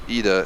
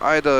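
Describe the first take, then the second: First: The name is said the European way. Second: The name is said the American way. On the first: "Ida if you live in Europe" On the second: "Ida if you live in the U S"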